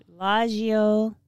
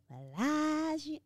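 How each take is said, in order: First: Said in the usual way. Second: Higher, softer drawn-out "Bellagio"; "Bellagio" savored in a high, soft voice; playful echo. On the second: Pretend. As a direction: stretch "Bellagio" slowly, lifting it high and soft. Echoes the wine name twice, playfully.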